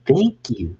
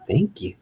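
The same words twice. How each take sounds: First: Said in the usual way. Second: A squeaky high-pitched "Thank you". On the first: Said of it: "Just say, "Thank you". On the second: Shown as a demonstration. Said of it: "Just say".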